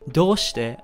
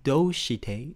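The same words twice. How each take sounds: First: It is pronounced smoothly and naturally. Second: It is pronounced in a clumsy, exaggerated way. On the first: The speaker calls it right. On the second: The speaker calls it wrong.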